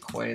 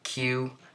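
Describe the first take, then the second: First: The word sounds like 'kway'. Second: The word sounds like the letter Q. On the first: "It's probably quay though, which sounds pretty stupid" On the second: "I personally think it's Q"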